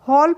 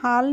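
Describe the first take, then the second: First: The vowel is a rounded 'aw' sound. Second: The vowel is an open 'aa' sound. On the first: The speaker calls it right. "हॉल पढ़ेंगे" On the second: The speaker calls it wrong. "इसको हम हाल नहीं पढ़ेंगे"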